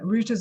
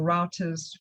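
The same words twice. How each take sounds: First: It is said with an American pronunciation. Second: It is said with a UK pronunciation.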